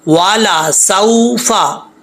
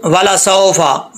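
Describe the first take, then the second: First: "सौफा" में साफ़ औ, धीमा और खींचकर; "सौफा" को सौ की आवाज़ से पढ़ो; सही उच्चारण. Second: "सौफा" को "साफा" बोलना, औ को आ जैसा खोलकर; "सौफा" धीमा, गलत ढंग से आ के साथ; गलत उच्चारण. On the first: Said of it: "सौ होता है". ("सौफा" धीरे, साफ़ औ के साथ) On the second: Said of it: "ऐसा नहीं पढ़ना". ("सौफा" में औ की जगह लंबा आ) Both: Shown as a demonstration.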